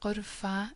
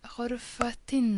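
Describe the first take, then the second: First: The word ends in a plain a vowel. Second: The word carries an audible t sound. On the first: The word stands alone. "Just an a sound at the end" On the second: The word is joined to a following noun. "So you can hear the T"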